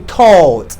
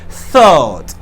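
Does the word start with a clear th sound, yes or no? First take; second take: no; yes. First: The first sound is not a clear th. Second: The first sound is a clear th. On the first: The speaker calls it wrong. "don't say thought" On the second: The speaker calls it right. "You should put your tongue in between your teeth"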